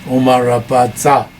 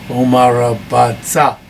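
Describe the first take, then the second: Both takes have the same delivery.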